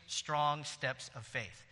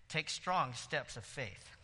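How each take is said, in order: First: Strong steps of faith slowly spaced, strong hit hardest; deliberate slow emphasis on strong; slow stress. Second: Deliberate repeat stressing strong; slow stress. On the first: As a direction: lay down each word slowly. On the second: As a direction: Take strong steps of faith spaced slowly, strong hit. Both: Shown as a demonstration.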